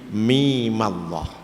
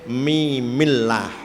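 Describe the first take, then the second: First: The m before Allah takes an 'a' vowel. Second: The m before Allah takes an 'i' vowel. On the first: This keeps the word Allah heavy. The speaker calls it right. "mimnya dibaca fathah tidak kasroh" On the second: This follows the general rule for a silent m. The speaker calls it wrong. "menurut kaidah mestinya mimillah"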